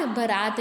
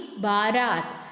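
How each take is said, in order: First: बारात said as "ba-raat"; short first vowel. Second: बारात said slowly as "baa-raat"; slow, lower बारात with long first syllable. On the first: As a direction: clip बा to ब in बारात. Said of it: "बारात नहीं". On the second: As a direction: stretch बा in बारात. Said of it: "बा में आ की मात्रा". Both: Shown as a demonstration.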